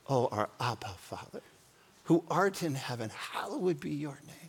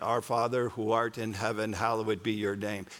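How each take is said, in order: First: It is said warmly, in an intimate, personal way. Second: It is recited in a flat, mechanical way.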